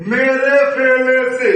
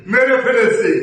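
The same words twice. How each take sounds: First: "মেরে ফেলেছে" slowly drawn out as me-re-fe-le-se; syllables stretched out. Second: Said in the usual way. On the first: Shown as a demonstration. Teacher shows what the wrong sound becomes, syllables stretched out. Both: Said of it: "তাহলে উচ্চারণটা কি হয় দেখেন".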